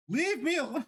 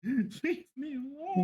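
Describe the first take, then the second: First: Much higher, pleading; whiny high plea. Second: Slow laughing repeat. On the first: Whining about country songs everywhere. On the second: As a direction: laugh through it slowly. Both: Real, not acted.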